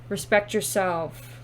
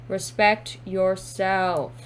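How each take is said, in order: First: Said in the usual way. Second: "Respect yourself" slowly, each word apart; slow emphatic repeat. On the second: Real, not acted.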